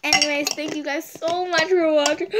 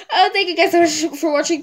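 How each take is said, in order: First: Said in the usual way. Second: Louder, higher, choked-up thank-you; teary thanks. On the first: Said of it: "I'm about to cry again". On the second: Real, not acted. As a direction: thank them while tearing up. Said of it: "I'm about to cry".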